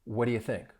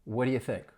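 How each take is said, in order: The two takes are said the same way.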